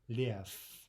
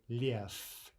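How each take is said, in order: Both takes have the same delivery.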